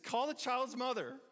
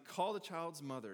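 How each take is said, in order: First: It is said loudly, like an exclamation. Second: It is said calmly, in a plain reading voice.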